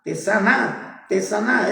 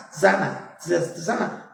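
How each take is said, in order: First: "tesana" read letter for letter as te-SA-na with the t joined on; literal reading tesana. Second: "sana" said as two syllables, SA-na, stress on the first; pronounced sana. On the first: Preacher sounding out the literal letters of the word, te-SA-na. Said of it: "si usted lo leyera literalmente ... estaría diciendo tesana". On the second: Preacher showing the congregation how to say the word, SA-na. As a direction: say "sana" plainly as SA-na. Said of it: "se puede decir sana". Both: Shown as a demonstration.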